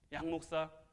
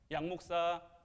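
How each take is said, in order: The two takes are said the same way.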